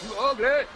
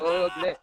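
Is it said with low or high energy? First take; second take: high; low. First: It is said with lots of energy. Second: It is said with little energy.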